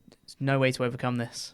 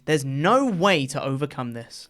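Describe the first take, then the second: First: It is said flatly with no emotion. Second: It is said with lively, varied pitch. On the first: The speaker calls it right. "That's more like it" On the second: The speaker calls it wrong. "That was too much inflection"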